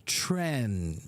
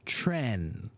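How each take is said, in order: First: The vowel is a short 'eh' sound. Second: The vowel is a short 'eh' sound.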